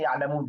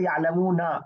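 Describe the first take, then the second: First: The word ends on the consonant, vowel dropped. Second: The word ends with a final short vowel. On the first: This is how it is read when stopping. "लेकिन हम पढ़ते हैं यालमून, जहां रुक रहे होते हैं" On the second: This is the full form of the word. "होता है, यालमूना"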